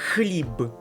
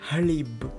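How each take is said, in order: First: The first sound is a rough, throaty kh. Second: The first sound is a soft, breathy h. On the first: The speaker calls it right. "It's more like tough. ... It's хліб" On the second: The speaker calls it wrong. "Not хліб"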